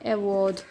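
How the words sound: It is said with a British accent. "award in British"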